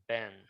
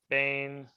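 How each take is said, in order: First: The word has a short vowel. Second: The word has a long vowel. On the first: The word is joined to the next by a hyphen. "it would reduce to a short vowel" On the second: The word stands without a connecting hyphen. "let's say you had um Bain Yisrael"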